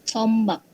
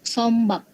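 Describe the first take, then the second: No difference in how they are said.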